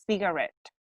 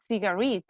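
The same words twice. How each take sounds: First: "cigarette" ending in a short ret; correct pronunciation. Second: "cigarette" with an ee in the last syllable, ci-ga-REET; mispronunciation. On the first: Teacher correcting students' word, correct pronunciation. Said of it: "it's cigarette". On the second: Teacher showing the mistake to avoid, mispronunciation. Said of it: "it's not cigarette". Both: Shown as a demonstration.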